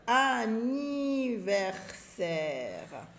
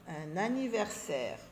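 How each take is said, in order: First: Anniversaire stretched very slowly, a-ni-ver-saire; syllable by syllable. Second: Said in the usual way. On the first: Shown as a demonstration. Teacher sounding out anniversaire for readers, very slow syllables. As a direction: draw out every syllable of "anniversaire".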